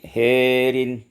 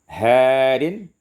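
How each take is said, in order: First: The vowel after h leans toward e. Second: The vowel after h is an open a.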